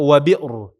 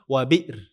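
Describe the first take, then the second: First: The r sound is heavy and thick. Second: The r sound is light and thin. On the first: The speaker calls it wrong. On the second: The speaker calls it right. "Ini kita baca tipis"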